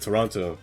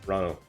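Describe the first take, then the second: First: It is said in a non-Canadian way. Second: It is said the way Canadians say it.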